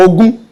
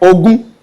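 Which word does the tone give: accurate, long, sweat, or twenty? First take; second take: twenty; twenty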